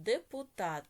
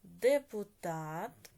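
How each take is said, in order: First: Said in the usual way. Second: ДЕПУТАТ slow and loud, syllable by syllable; slow dictation. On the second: Shown as a demonstration. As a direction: stretch out ДЕПУТАТ for pupils, ending on a rise. Word dictated, then repeated for marking.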